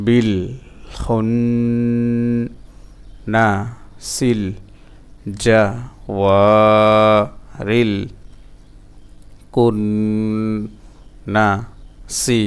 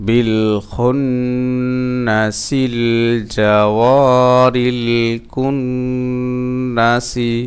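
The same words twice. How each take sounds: First: বিল to সি chanted piece by piece with long gaps; broken-up syllables. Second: Very slow, flowing, drawn-out chant; sung, joined-up recitation. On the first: Teacher drilling learners, slow syllable-by-syllable chant. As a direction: stretch খুন, ওয়া and কুন, pausing after every syllable. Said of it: "ভাঙা ভাঙা উচ্চারণ". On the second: Teacher reading the verse whole for learners, sustained chant. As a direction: link বিল খুন্নাসিল জাওয়ারিল কুন্নাসি, humming through the held nasals. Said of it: "reading উচ্চারণ চালু করতে হবে". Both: Shown as a demonstration.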